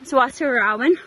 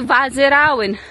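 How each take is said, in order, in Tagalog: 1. Nagsisimula ang pangalan sa tunog na W. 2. Nagsisimula ang pangalan sa tunog na V. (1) "It's Wasirawan" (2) "Actually, Vazirawan. Since W is read as a V"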